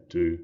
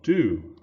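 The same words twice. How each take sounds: First: "do" weakened towards "duh"; unstressed "do", vowel relaxed and short; reduced vowel. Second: "do" drawn out with a full oo; stressed "do" with its whole vowel. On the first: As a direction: say "do" casually with a schwa. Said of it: "we say do". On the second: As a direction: pronounce "do" fully and emphatically. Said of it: "instead of do". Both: Shown as a demonstration.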